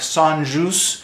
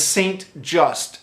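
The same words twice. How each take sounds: First: The name is said with French sounds. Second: The name is said with English sounds. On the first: "I believe the French pronunciation is something like" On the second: "that's how it's spelled, and I guess that's how you would say it in English maybe"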